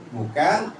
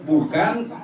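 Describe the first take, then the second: The two takes are said the same way.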